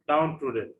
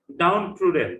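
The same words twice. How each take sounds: First: Said in the usual way. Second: Downtrodden said loud and clear, stress on DOWN; teacher modelling Downtrodden for the class; model pronunciation. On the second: Shown as a demonstration. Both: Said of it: "try to pronounce the words correctly".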